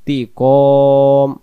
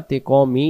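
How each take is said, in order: First: তি কম loud, long held o closing on m; pausal ending. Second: তি ক মি with the final mi sounded; full ending. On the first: Teacher showing the pause form, loud drawn-out তি কম closed on m. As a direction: stretch কম and drop the final i. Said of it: "দুই জিরকে আমরা বাদ দেব". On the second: Teacher showing the form to avoid, তি ক মি with vowel ending. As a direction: say তি ক মি ending on a short i. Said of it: "না পড়ে". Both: Shown as a demonstration.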